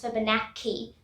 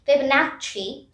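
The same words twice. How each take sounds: First: The double c sounds like k. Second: The double c sounds like ch. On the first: The speaker calls it wrong. "It's not pronounced as Fibonacci. That's wrong" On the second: The speaker calls it right. "the C C section is pronounced as C H"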